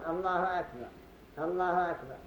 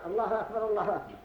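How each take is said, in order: First: الله أكبر with a stop after each; pause between phrases. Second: الله أكبر، الله أكبر joined in one quick breath, rising start; run together quickly. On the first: Teacher shows the paused adhan, each phrase separated. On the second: Teacher contrasts the joined adhan, quick and unbroken. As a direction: rush both الله أكبر together without stopping. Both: Shown as a demonstration. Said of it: "من الذي يدرينا أنه قال".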